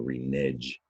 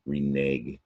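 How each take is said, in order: First: The word ends with a soft G sound. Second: The word ends with a hard G sound. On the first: The speaker calls it wrong. "make it a soft G sound at the end there" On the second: The speaker calls it right. "but you hear a hard G"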